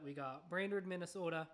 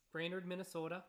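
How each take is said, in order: First: Lightly done Minnesota accent on Brainerd, Minnesota. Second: Said in the usual way. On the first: Shown as a demonstration. Host reading a place name to listeners, in a light Minnesota accent. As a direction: say we got Brainerd, Minnesota with a hint of Minnesota vowels. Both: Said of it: "I'm gonna subject y'all to the accent".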